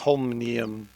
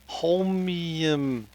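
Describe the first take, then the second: First: The word has an extra 'n' syllable inserted. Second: The word has three syllables with no extra 'n'. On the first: The speaker calls it wrong. "I am saying Holmnium" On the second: The speaker calls it right. "There's no Ian in Holm"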